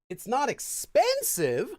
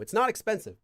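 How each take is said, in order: First: The pitch is raised, adding contrastive emphasis. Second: The pitch stays level, with no added emphasis. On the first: It contrasts with something that comes next. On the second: A plain statement that something is not expensive.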